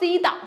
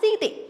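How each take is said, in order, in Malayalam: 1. ഈ പേര് 'a' എന്ന സ്വരാക്ഷര ശബ്ദത്തിൽ അവസാനിക്കുന്നു. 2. ഈ പേര് 'e' എന്ന സ്വരാക്ഷര ശബ്ദത്തിൽ അവസാനിക്കുന്നു.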